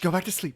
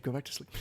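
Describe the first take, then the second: First: Said in the usual way. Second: Soft hush, much softer; whispering over a crib. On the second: Acted. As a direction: hush it down like a baby. Hushing it back to sleep.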